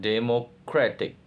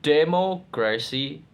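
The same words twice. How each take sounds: First: "democratic" split, with weight on CRA; shifted stress. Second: "Democracy" split in two, opening "Demo" high and strong; base-word stress. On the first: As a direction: hold back "demo", then stress CRA in "democratic". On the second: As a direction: hit "Demo" in "Democracy", then drop on cracy. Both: Shown as a demonstration. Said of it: "Stress change".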